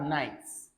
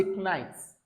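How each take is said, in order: First: Said in the usual way. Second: Nights said as k-nights with the K pronounced; wrongly sounded K. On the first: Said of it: "You can't say nights". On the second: Shown as a demonstration. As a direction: sound the silent K in nights, k-naɪts. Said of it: "You can't say".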